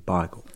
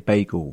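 First: Bagel is said with the East End pronunciation. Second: Bagel is said with the standard pronunciation. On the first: This is how the speaker's community says it. "we say bagel" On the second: This is how outsiders say it. "We don't say bagel"

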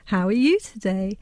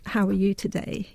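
First: It is said with an exaggerated, song-like melody. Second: It is said with a plain, even adult melody. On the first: It is speech aimed at a baby. "exaggerating the prosodic melody, but also hyperarticulating the vowels" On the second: It is ordinary speech to an adult. "you wouldn't say to a baby"

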